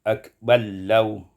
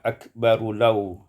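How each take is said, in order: First: The r merges into a doubled l. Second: The r and its vowel are pronounced separately.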